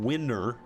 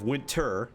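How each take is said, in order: First: The t sound in the middle is dropped. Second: The t sound in the middle is pronounced. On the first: "we're saying winner" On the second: "instead of winter"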